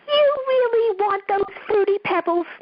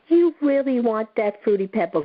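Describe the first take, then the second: First: It is said in a funny put-on voice. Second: It is said in a normal voice.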